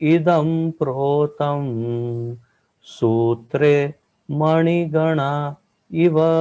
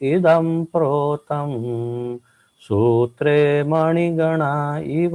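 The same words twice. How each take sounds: First: The verse is spoken slowly and deliberately. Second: The verse is spoken at a normal pace.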